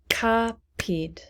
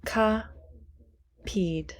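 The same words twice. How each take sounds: First: Said in the usual way. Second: Whispered word. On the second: Shown as a demonstration. Teacher whispering a word while counting syllables. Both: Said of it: "how many syllables?".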